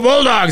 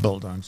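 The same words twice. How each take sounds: First: It is said with excited, lively energy. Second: It is said flatly, with little energy. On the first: The speaker is eager to bond over the team. The speaker calls it right. "you're trying to bond with these people. And you go, oh" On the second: The speaker does not really care about the team. The speaker calls it wrong. "Didn't sound very enthusiastic ... she's going, yeah, ... whatever"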